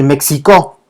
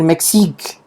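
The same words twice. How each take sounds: First: "México" dicho "mek-si-kó"; pronunciación de la ciudad. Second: "Mexique" dicho "mek-sík", acabado en k; pronunciación del país. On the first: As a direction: di "México" a la francesa, con o final. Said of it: "entonces vamos a decir México". (modela "México" con ks y acento al final) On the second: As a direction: di "Mexique" sin vocal final. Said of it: "vamos a decir Mexique". (modela "Mexique" a la francesa, acento en "sík") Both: Shown as a demonstration.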